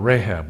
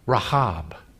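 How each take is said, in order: First: The name is said in an English way. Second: The name is said in a non-English way.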